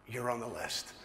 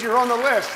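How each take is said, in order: First: Soft, low delivery of big news; hushed, weighty reveal; understated reveal. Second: Loud, high, jubilant news; big celebratory reveal, pitched up; excited announcement. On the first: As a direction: break the news quietly, lower and softer. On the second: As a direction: shout out the good news. News repeated, now loudly. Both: Retold or imitated.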